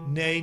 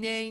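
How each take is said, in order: First: The voice sounds normal, with a standard larynx position. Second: The voice sounds exaggerated, with a raised larynx. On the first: "we go back to normal" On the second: "The high larynx with an exaggerated tone"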